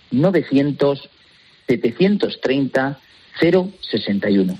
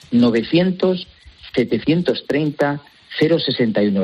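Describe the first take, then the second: First: Phone number spaced out slowly in groups; slow repeat. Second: Said in the usual way. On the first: Real, not acted. Guest repeats the free phone number for radio listeners, slowly. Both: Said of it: "Repito despacito".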